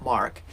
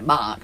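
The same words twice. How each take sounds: First: The word is said with a clear R sound. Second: The word is said with no R sound. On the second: "I don't say R's. I say the name Mark"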